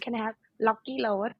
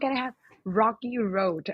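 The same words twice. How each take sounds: First: It is said in a Thai accent. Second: It is said in an exaggerated American accent.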